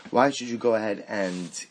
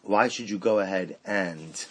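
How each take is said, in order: Both takes have the same delivery.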